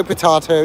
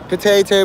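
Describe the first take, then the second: First: Potato said as po-TAH-to, with the ah vowel. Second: Potato said as po-TAY-to, with the ay vowel. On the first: Streamer contrasting the two ways of saying potato, now po-TAH-to. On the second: Streamer contrasting the two ways of saying potato, po-TAY-to first. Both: Shown as a demonstration. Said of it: "it's all the same".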